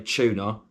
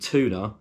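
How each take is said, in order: First: It is said in a non-American accent. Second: It is said in an American accent.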